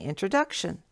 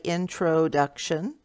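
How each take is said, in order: First: The second syllable is reduced to 'uh'. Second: The second syllable has a full, clear vowel. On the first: The speaker calls it right. "that syllable in the middle there, T R O, is turned off" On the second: The speaker calls it wrong. "I don't say introduction"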